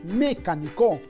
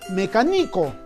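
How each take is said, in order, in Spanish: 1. El acento está en la primera sílaba. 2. El acento está en la tercera sílaba. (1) "creo que no decimos mecánico, por lo tanto creo que no sería sobre esdrújula" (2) "o quizás sea graveoliana ... algo no suena bien"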